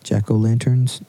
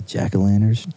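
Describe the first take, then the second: First: Said in the usual way. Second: "jack-o'-lanterns" slurred to "jackalanners"; accent slipping out. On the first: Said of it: "My accent came out there". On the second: Real, not acted. Co-host listing fall things, "jack-o'-lanterns" slurred in own accent. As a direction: let "jack-o'-lanterns" run together, its T dropped. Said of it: "The way you said it?".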